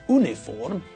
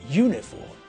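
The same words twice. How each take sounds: First: It starts with a plain vowel, no y sound. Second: It starts with a y sound before the vowel. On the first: The speaker calls it wrong. "It's not uniform" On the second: The speaker calls it right. "we say it with a y sound"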